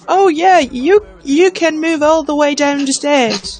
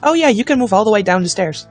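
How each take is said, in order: First: It is said in a British accent. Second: It is said in the speaker's plain accent.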